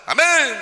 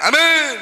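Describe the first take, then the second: First: It is said in a joking, playful way. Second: The same.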